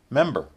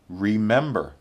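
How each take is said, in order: First: It is said in its most reduced form. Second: It is said in its full, careful form. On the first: "the least formal" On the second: "the most formal"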